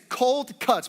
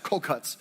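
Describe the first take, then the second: First: The words are said slowly and separately. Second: The words are said quickly, run together.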